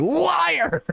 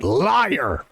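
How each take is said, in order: First: High, wounded cry of liar; an upset kid calling out the clown; hammed-up upset accusation; most upset voice. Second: Low, accusing cry of liar; kid yelling liar. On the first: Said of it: "with the most upset voice ever". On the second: Retold or imitated. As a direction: call the clown a liar like a bratty kid. Kid calling out clown.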